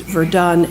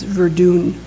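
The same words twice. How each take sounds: First: Said in the usual way. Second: Verdun said as "ver-DOON"; old soldier's "Verdun", rhyming with "moon"; archaic pronunciation. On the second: Retold or imitated. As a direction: give Verdun a long "oo" in the last syllable. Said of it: "pronounced Verdun as Verdun".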